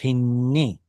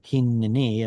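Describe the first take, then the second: First: The two n sounds merge into one. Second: A vowel sounds between the two n sounds. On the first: You can't tell there are two letters there. The speaker calls it wrong. "Otherwise, it just becomes hinni" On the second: Both letters of the doubled consonant are audible. The speaker calls it right. "we have to pronounce some kind of a vowel sound there"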